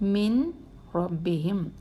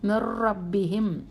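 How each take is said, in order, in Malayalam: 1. r-ന് മുമ്പ് n വ്യക്തമായി ഉച്ചരിക്കുന്നു. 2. n ഒരു ഇരട്ട r-ലേക്ക് പൂർണ്ണമായി ലയിക്കുന്നു. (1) "നൂനെന്ന് വെളിവാക്കിയേ" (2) "നൂനിനെ അവോയ്ഡ് ചെയ്യണം"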